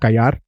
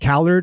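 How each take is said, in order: First: The double L is said as in Spanish. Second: The double L is said as in English.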